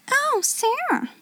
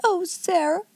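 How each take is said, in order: First: Much higher, softer exclamation; high-pitched put-on friendly greeting; exclaimed, feigned pleasantness. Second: High, soft whimper; plaintive, helpless sigh of a name; almost whimpering. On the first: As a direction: exclaim sweetly in a high voice with a forced smile. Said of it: "endeavoring to produce a suitable smile". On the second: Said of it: "almost whimpered Miss Amelia". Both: A narrator's reading.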